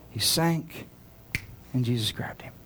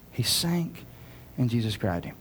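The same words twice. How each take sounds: The two takes are said the same way.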